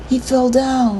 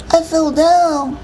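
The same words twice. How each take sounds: First: Higher-pitched, innocent excuse; boy's excuse. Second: Put-on high, slow small-child voice; little boy. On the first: Older brother explains the injury to Mom, making excuses. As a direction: offer the excuse in a lightly boyish voice. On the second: Little brother backs up the excuse to Mom, childlike. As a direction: echo it slowly in a tiny boy's voice. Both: A narrator's reading.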